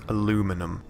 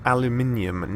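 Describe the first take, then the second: First: It is said the American way. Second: It is said the British way. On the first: The speaker calls it wrong. "not aluminum" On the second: The speaker calls it right. "I am from England, where we invented English, and it is said aluminium"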